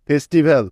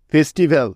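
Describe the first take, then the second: No difference in how they are said.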